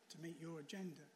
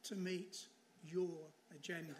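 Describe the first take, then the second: First: "to meet your agenda" repeated softer with a small laugh, trailing off; soft echo. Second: "to meet your agenda" stressed on "your", slow and firm; emphatic close. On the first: Preacher echoing the Keller quote to the congregation, soft and amused. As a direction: let "to meet your agenda" fall away softly with a chuckle. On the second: Preacher driving home the point of the Keller quote, slow and firm. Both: Shown as a demonstration. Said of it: "then you only trusted God".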